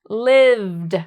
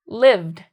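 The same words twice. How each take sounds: First: The word is said slowly. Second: The word is said quickly. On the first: "blend it with my finger" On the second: "Then I'm going to go faster"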